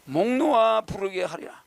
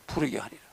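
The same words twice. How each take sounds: First: 목놓아 read slowly with weight on 목놓아; slow recitation. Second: Said in the usual way. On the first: Shown as a demonstration. Teacher reciting the poem, slow with weight on 목놓아. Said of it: "목을 놓는다는 게 뭐야?".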